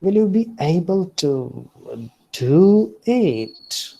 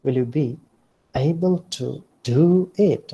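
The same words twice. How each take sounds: First: Higher and louder, rising then falling on "do it"; mocking doubt. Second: "be" stressed, gentler up-down swoop; mild mocking doubt. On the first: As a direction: tease them, you doubt they can. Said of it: "someone is mocking". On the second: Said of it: "Like this". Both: Shown as a demonstration.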